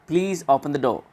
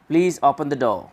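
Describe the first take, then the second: The two takes are said the same way.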